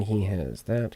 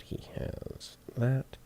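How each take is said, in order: First: Said in the usual way. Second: Slow unvoiced whisper. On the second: Real, not acted. Engineer whispers his check to himself, slow and hushed. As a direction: breathe the words slowly.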